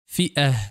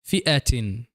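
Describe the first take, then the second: First: The word ends with an h sound. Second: The word ends with a tin sound. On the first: The speaker stops on the word. "When stopping" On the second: The word is joined to the following speech. "When joining"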